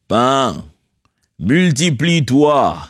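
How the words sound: It is said like God's voice in films.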